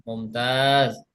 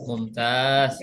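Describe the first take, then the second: The two takes are said the same way.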